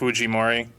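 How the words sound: The name has a Japanese-style pronunciation. "the Japanese name"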